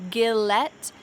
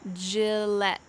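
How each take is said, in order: First: The word begins with a hard G sound. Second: The word begins with a soft J sound. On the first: The speaker calls it wrong. "Don't say Gillette" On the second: The speaker calls it right. "Instead, we say J"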